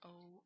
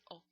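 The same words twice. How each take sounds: First: The vowel is drawn out long. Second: The vowel is kept short. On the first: The speaker calls it wrong. "O is not a long sound. It's not O" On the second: The speaker calls it right. "It's O"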